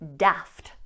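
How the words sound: The vowel is a short, flat 'a' sound. "you'll hear this A pronounced as a short A"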